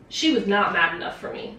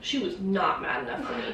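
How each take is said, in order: First: "she was not mad enough for me" pressed out firmly; emphatic complaint. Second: "She was not mad enough for me" repeated, dropping, with a falling end; muttered restatement; quieter repeat. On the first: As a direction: lay the stress on she. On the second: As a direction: echo yourself softer for emphasis. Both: Real, not acted.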